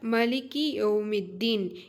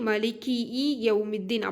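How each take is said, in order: First: The words are joined with no extra vowel. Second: An extra vowel is added between the words. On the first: The one Master of the Day of Judgment. The speaker calls it right. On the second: Masters of the Day of Judgment, plural. The speaker calls it wrong.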